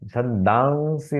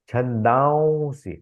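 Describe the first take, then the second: First: The nasal before s sounds plain, without glide. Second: The nasal before s has a v-like glide. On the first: The speaker calls it wrong. "छंदांसी नहीं" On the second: The speaker calls it right. "वहां थोड़ा वो का उच्चारण आएगा"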